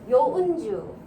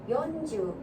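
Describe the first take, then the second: First: The n sound is held for a full beat. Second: The n sound is cut short. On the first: The speaker calls it right. "원래 발음이 이거예요" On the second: The speaker calls it wrong. "이렇게 짧게 하지 마시고"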